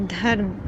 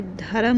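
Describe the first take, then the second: First: धर्म said as dharm with a half r and no vowel after r; धर्म with a half र, the right way; correct half r. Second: धर्म said as dha-ram with a full r and an extra vowel; धर्म with a full र, wrongly split. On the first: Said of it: "ये आधा र है". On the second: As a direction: mispronounce धर्म as dharam to show the error. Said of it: "पूरा र नहीं". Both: Shown as a demonstration.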